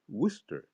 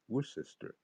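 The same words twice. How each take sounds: First: The name is said the local way. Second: The name is said a non-local way. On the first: The speaker calls it right. "that's how I know it is Worcester" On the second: The speaker calls it wrong. "and not Worcester"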